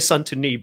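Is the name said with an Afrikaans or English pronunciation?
Afrikaans. The name is said the Afrikaans way.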